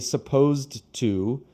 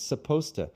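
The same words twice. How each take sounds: First: The words are pronounced in full. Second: The words are strongly reduced. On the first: The speaker calls it wrong. "you don't say supposed to" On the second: The speaker calls it right. "the advanced reduction on that is supposed to"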